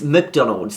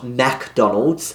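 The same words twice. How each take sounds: First: The first syllable does not sound like 'Mac'. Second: The first syllable sounds like the word 'Mac'. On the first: The speaker calls it right. "I'd better pronounce it right. It's McDonald's" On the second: The speaker calls it wrong. "not McDonald's. I probably thought you sell Mac computers there"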